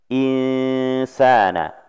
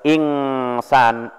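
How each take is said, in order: First: The n before s is faint and hidden. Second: The n before s is a full ng sound. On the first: The speaker calls it right. "tapi samar-samar nunnya" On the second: The speaker calls it wrong. "bukan ingsan, ing pakai ng"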